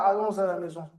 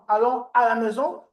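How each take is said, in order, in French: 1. Allons se lie à à avec un son z. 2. Allons se dit sans son z de liaison.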